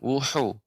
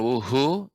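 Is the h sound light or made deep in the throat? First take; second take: throat; light. First: The h is made with a narrowed throat. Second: The h is a light, plain breath sound. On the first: The speaker calls it right. "tapi pertengahan tenggorokan" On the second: The speaker calls it wrong. "bukan wuhu ya"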